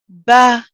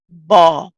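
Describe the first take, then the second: First: The consonant and vowel sound light and thin. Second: The consonant and vowel sound heavy and full. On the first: The speaker calls it right. "It sounds very light" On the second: The speaker calls it wrong. "which would be heavy, and that would be incorrect"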